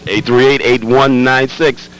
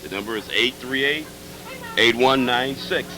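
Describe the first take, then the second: First: Called out louder. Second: Said in the usual way. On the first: Shown as a demonstration. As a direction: punch the number out loud. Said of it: "repeats the phone number louder". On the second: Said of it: "repeats the phone number".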